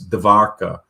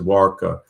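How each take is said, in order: First: The second sound is a V sound. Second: The second sound is a W sound. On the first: "they pronounce it like a V. So it's Dvarka" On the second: "I should have just called it Dwarka"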